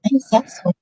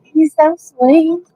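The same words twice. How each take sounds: First: "sweet" clipped and quieter; "sweet" gesagt anders, leiser; other take of sweet. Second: "sweet" said slowly and stretched, higher; drawn-out sweet. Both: Shown as a demonstration. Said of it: "don't even say sweet".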